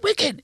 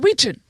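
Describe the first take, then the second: First: The word has a short i and k sound. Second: The word has a long ee and ch sound. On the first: The speaker calls it wrong. "It is not Wiccan" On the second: The speaker calls it right. "It is Weechin. That's the correct correct pronunciation"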